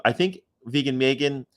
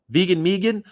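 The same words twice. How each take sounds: First: Said in the usual way. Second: Vegan Megan sung out high and playful; sing-song nickname. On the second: Pretend. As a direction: chirp Vegan Megan like a cheerful jingle. Repeats nickname in put-on voice.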